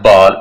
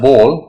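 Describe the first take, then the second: First: The vowel is not a rounded o sound. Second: The vowel is a rounded o sound. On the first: The speaker calls it wrong. "It's not a बॉल" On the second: The speaker calls it right. "ओ sound"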